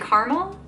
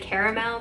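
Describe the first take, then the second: First: The word is said differently from its spelling. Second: The word is said the way it is spelled. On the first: This is the speaker's own habit. The speaker calls it wrong. "I say caramel" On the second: This is how most people say it. The speaker calls it right. "most people say caramel. That's how it's spelled"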